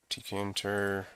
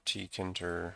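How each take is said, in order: First: Tkinter said as "tee-kay-inter"; letter-by-letter pronunciation. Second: Tkinter said as "tee-kinter"; alternative pronunciation. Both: Shown as a demonstration. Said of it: "however you say that".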